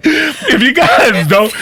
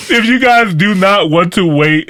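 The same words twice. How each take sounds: First: Laughing. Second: Laughing through words. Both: Real, not acted. Host cracks up mid-sentence.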